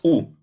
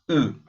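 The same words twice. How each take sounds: First: The vowel is a plain Spanish u sound. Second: The vowel is a fronted, French-like u sound. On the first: The speaker calls it wrong. "así no es U" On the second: The speaker calls it right. "es una U como una U francesa"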